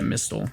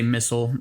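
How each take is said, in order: First: The T sound is pronounced in the word. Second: The T sound is left silent in the word.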